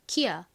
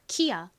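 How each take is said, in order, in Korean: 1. 이름은 k 소리로 시작합니다. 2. 이름은 k 소리로 시작합니다.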